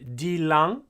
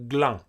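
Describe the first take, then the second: First: The word begins with a full dil syllable. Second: The word begins with a gl cluster. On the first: This is the full, uncontracted form. "instead of dilang" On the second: This is a further shift heard from some people. "you start to hear people pronouncing it like glang"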